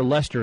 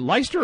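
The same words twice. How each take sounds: First: "Leicester" in two syllables, LESS-ter; Leicester said as "Lester". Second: "Leicester" with a long i, LIE-ster. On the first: Host checking a place name, "Leicester" as LESS-ter. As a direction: say "Leicester" to rhyme with Nestor. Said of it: "I think it's Leicester". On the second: Host unsure of a place name, "Leicester" as LIE-ster. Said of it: "is it Leicester or Leicester". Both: Shown as a demonstration.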